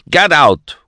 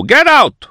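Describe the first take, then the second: First: "Get out" barked loud; shouted order. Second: "Get out" shrieked much higher and loud; shrieked order. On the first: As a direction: throw them out firmly. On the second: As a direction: scream them out the door. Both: A narrator's reading.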